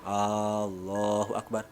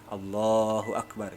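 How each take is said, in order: First: The opening vowel is drawn out long. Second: The L sound is drawn out long. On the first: It asks whether God is the greatest. The speaker calls it wrong. "hamzahnya tidak boleh panjang" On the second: It states that God is the greatest. The speaker calls it right. "yang panjang itu lam. Lamnya, jangan hamzahnya"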